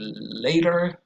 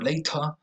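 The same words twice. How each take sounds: First: The middle t is a quick flap. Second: The middle t is not flapped. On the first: "In U S English they say later" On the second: "in British English they say later"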